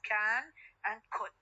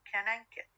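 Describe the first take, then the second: First: The vowels are full, strong forms. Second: The vowels are reduced to weak forms. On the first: "the strong form" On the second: "The weak forms of these two uh, uh, auxiliary verbs here"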